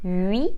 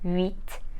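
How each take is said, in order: First: The final consonant sound is silent. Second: The final consonant sound is pronounced. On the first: The speaker calls it right. "the last sound of these three numbers becomes silent" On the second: The speaker calls it wrong.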